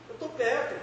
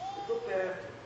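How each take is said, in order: First: It is said in a changed, impatient tone. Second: It is said in a calm, ordinary tone.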